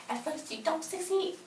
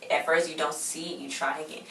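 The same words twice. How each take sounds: First: Very high, soft mocking voice; mock singsong. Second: Said in the usual way. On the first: Recapper mocking the quote she tore up, high mock singsong. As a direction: repeat it in a tiny high-pitched voice.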